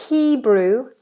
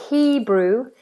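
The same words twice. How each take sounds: Both takes have the same delivery.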